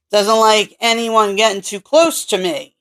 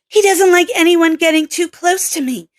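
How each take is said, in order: First: Said in the usual way. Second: Redone higher as Kelly, the right character; corrected take in the female lead's voice; Kelly's voice. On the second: Acted. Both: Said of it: "that is Kelly's line!".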